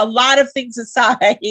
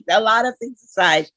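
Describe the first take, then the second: First: Said in the usual way. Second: Laughing. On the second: Real, not acted. Repeats phrase through a laugh.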